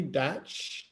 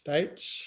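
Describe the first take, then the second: First: Datch said with a flat a, like batch; first misreading of the name. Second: Deitch said with a long ai, like the German Deich; corrected name. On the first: Host reading a caller's name off the screen, first as Datch. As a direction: reads the surname Datch, rhyming with match. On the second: Host self-correcting the caller's surname to Deitch. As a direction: fixes the name to Deitch, rising as if checking. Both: Real, not acted.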